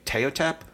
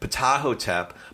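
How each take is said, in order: First: The name starts without a P sound. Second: The name starts with a P sound. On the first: The speaker calls it wrong. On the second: The speaker calls it right.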